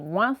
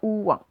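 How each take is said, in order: First: It is said as one blended sound. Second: It is split into two separate sounds. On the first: The speaker calls it right. "c'est un seul son. C'est le son ouin" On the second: The speaker calls it wrong. "c'est pas deux sons. C'est pas ouin"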